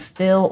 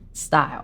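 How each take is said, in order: First: The name rhymes with 'fill'. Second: The name rhymes with 'mile'. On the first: The speaker calls it wrong. "I pronounced it still for a very long time" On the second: The speaker calls it right. "I did hear that it's pronounced style"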